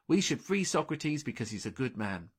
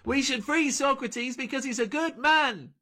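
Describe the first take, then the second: First: It is spoken softly at low volume. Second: It is screamed at very high volume. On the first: "she said quietly" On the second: "Delphi screamed"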